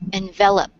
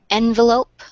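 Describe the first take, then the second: First: The stress is on the second syllable. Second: The stress is on the first syllable. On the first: It means to cover or wrap around. "envelope is in the second" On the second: It names a paper cover for a letter. "is in the first syllable"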